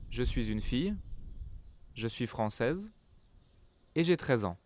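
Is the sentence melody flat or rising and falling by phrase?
rising and falling. Short breaks; the voice rises per group, falls at end. The speaker calls it right. "Natural French people, they will speak"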